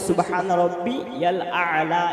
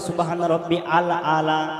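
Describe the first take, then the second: First: Rabbi and al are joined by a y sound. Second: Rabbi and al are said apart, without y. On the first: The speaker calls it right. "এখানে বলতে হবে" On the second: The speaker calls it wrong. "অধিকাংশ মানুষ বলে ... আলিফ থেকে বলে"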